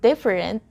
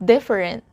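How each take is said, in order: Both takes have the same delivery.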